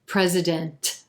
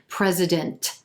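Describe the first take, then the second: First: The final T is released heavily and strongly. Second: The same.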